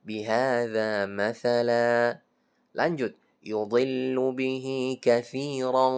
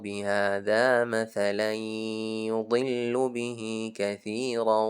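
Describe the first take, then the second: First: It stops after مَثَلًا, then carries on. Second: It runs on without stopping after مَثَلًا. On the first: The speaker calls it right. "Jadi berhenti aja" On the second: The speaker calls it wrong. "Jangan dibaca lanjut. Contohnya, ... Bukan"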